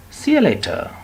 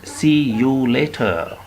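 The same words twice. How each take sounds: First: SEE YOU LATER run together as "see-ya later", high; informal see you later. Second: SEE YOU LATER slowly, with a full "you"; anxious, over-careful wording. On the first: Teacher modelling informal farewell for learners, relaxed linked words. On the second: Teacher showing what not to say, careful word-by-word farewell. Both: Shown as a demonstration.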